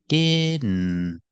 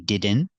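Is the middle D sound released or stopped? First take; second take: stopped; released. First: The middle D sound is stopped, not released. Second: The middle D sound is fully released. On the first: The speaker calls it right. "it's better to make the D sound, a stop D" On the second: The speaker calls it wrong. "You can say didn't"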